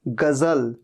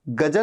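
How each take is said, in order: First: The middle consonant is a 'z' sound. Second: The middle consonant is a 'j' sound. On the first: The speaker calls it right. "ज के नीचे बिंदु" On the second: The speaker calls it wrong. "गजल नहीं"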